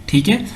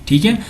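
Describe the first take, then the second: No difference in how they are said.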